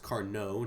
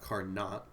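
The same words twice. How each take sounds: First: The word ends without a T sound. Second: The word ends with a T sound. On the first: The speaker calls it right. "It's Carnot, We don't pronounce the T at the end of words in French" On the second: The speaker calls it wrong. "not Carnot"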